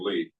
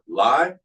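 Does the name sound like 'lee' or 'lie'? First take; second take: lee; lie. First: The vowel sounds like the word 'see'. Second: The vowel sounds like the word 'eye'. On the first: The speaker calls it right. "no, you know, that's the new way of spelling Lee" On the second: The speaker calls it wrong. "most of the class goes, oh, uh, li or lie"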